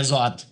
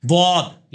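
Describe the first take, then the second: First: زواد with a plain z sound instead of the Arabic dwad; زواد, the letter turned into a soft z; wrong z-sound dwad. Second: دواد with the tongue's sides pressed to the roots of the upper teeth; دواد as the proper Arabic letter, not a z; correct Arabic dwad. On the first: Teacher mocks the z-like زواد of Deobandis and Shias. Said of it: "Deobandi اور شیعوں میں ایک چیز common ہے". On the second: Teacher showing the correct دواد to a questioner. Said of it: "یہ اوپر کے دانتوں کی جڑ میں لگانی ہے". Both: Shown as a demonstration.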